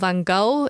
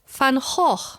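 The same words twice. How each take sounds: First: It is said with English sounds and a hard G. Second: It is said with a throaty, rasping G sound. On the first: "who we call Van Gogh in English" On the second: "this sound appears in Dutch"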